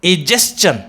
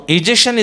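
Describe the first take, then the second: First: Egestion with "s-chun" ending; correct pronunciation. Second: Egestion ending in "shun"; wrong pronunciation. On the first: Teacher naming the correct form, carefully pronounced. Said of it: "is the correct pronunciation". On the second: Teacher naming the error, mispronounced. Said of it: "is a wrong pronunciation". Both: Shown as a demonstration.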